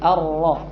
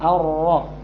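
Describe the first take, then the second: The two takes are said the same way.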